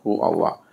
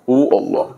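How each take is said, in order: First: It is softly breathed with the breath. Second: It is voiced outwardly and forcefully. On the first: The remembrance is felt inwardly with the breath. The speaker calls it right. "dinikmati turun naiknya nafas itu" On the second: The remembrance is made into an outward show. The speaker calls it wrong. "jangan dizahir-zahirkan ... Bukan begitu"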